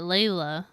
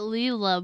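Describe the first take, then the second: First: The first vowel sounds like 'ay'. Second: The first vowel sounds like 'ee'. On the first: "but I would pronounce that Layla" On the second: "She's pronouncing it Leela"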